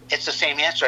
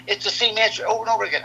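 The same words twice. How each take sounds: First: Said in the usual way. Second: Quick, higher, exasperated complaint; exasperated son. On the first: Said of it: "I go, I go". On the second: Retold or imitated. Son complaining to dad about repeated question, fast and exasperated. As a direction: rattle it off fast like a fed-up kid. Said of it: "He goes, he says".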